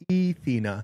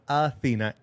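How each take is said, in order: First: The name begins with an 'e' vowel. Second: The name begins with an 'a' vowel. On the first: The speaker calls it right. "Ethena. E T H E N A" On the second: The speaker calls it wrong. "not Athena"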